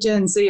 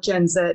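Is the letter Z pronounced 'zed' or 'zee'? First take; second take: zee; zed. First: The letter Z is pronounced 'zee'. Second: The letter Z is pronounced 'zed'. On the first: This is how others say it. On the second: This is how the speaker's own group says it.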